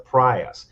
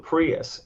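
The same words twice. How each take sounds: First: The first syllable sounds like 'pry'. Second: The first syllable sounds like 'pree'. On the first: The speaker calls it right. "It's actually pronounced the Prius, because ... you're gonna have to pry us out of it" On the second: The speaker calls it wrong. "that's not what it's called"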